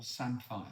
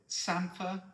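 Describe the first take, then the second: First: "samphire" said as SAM-fire; spelling pronunciation. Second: "samphire" said as SAM-fer; local pronunciation. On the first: Asking colleague the other option, SAM-fire pronunciation. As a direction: end "samphire" on a full -fire. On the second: Asking colleague the local option, SAM-fer pronunciation. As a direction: end "samphire" on a weak -fer. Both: Shown as a demonstration. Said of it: "Is it samphire or samphire".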